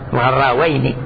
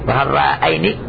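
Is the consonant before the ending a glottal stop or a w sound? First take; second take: w sound; glottal stop. First: A w sound comes before the dual ending. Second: A glottal stop comes before the dual ending. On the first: The speaker calls it right. "لا تبقى الهمزة همزة وإنما تقلب واو" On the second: The speaker calls it wrong. "ثانية ما تقول غراءين"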